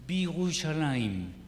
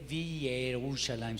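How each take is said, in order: First: The 'ye' syllable is dropped after 'bi'. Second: The 'ye' syllable is pronounced after 'bi'. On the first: The speaker calls it right. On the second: The speaker calls it wrong. "no se lee"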